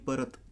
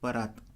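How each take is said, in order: First: The second vowel is a short a. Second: The second vowel is a long aa. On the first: "अकारांत परत" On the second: "त्याला गली परात काना दिला जातो"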